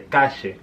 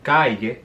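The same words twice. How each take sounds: First: It is said in an Argentine Spanish accent. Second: It is said in a neutral Spanish accent. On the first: "they'll say calle" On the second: "Instead of calle"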